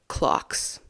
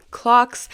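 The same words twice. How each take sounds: First: Secretive whispered clocks. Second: Clocks called out high and loud. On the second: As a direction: burst out with clocks. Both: Acted. Teasing hint to viewers.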